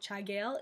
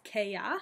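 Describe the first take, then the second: First: It is pronounced just as it is spelled. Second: It is pronounced as the short sound 'Kea'. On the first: The speaker calls it wrong. "you'll sound like a frosh if you say Chagail" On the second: The speaker calls it right. "It is Kea"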